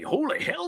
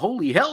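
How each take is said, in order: First: It is said in a put-on cartoon rooster voice. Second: It is said in an ordinary speaking voice.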